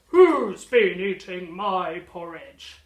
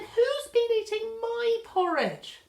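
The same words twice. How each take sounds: First: It is bellowed loudly in a booming voice. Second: It is said in a shocked, startled voice.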